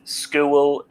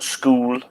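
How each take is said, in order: First: "school" with a long Sunderland oo, close to skuel. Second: "school" said the ordinary southern way; plain standard "school". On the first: Host from Sunderland says "school" her local way. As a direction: dialect "school", vowel drawn out. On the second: Host says "school" the way others say it. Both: Shown as a demonstration. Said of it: "I say school and not school".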